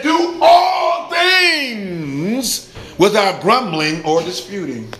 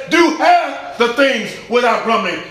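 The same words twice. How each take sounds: First: Booming, drawn-out "all things" correction; stress on ALL. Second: "half" hit high in a quick mock misquote; teasing high delivery leaning on "half"; stress on HALF. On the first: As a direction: stretch "all things" out, then drop to usual. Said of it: "He said". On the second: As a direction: punch "half" and run through the rest. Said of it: "We act like it says". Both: Shown as a demonstration.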